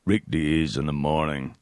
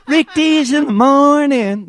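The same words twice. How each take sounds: First: Low, slow announcer tag; radio jingle. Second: Sung, high, loud, drawn-out radio jingle; sung, belt out the station ID way up high. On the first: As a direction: drop deep and stretch the station ID. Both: Retold or imitated. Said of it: "Then he'd play the jingle".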